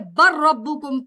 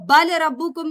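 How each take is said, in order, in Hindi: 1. L की आवाज़ दोहरे R में विलीन हो जाती है। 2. L की आवाज़ R से पहले बोली जाती है। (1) "बल्कि बर रब्बुकुम पढ़ेंगे" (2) "हम इसको बल रब्बुकुम नहीं"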